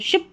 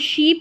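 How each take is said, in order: First: The vowel is a short i sound. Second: The vowel is a long ee sound. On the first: The speaker calls it right. "इसको शिप पढ़ेंगे" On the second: The speaker calls it wrong. "इसको शीप नहीं पढ़ेंगे"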